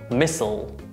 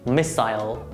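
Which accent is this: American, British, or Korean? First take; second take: American; British. First: It is said with American pronunciation. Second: It is said with British pronunciation. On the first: "American pronunciation" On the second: "British pronunciation"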